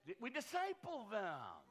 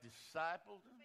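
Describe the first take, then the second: First: Slow, drawn-out Southern preacher lilt; a hint of a southern accent. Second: Said in the usual way. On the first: Real, not acted. Pastor answering the crowd's joke, a hint of Southern accent. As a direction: lean lightly into a Southern twang. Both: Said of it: "Did you say that with a southern accent?".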